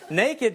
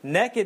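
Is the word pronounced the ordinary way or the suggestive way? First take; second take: ordinary; suggestive. First: The word has its ordinary, standard pronunciation. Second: The word has a different, suggestive pronunciation. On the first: Someone simply has no clothes on. "naked just means you don't have clothes on" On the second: Someone has no clothes on and is up to something. "Naked means you don't have clothes on and you're up to something"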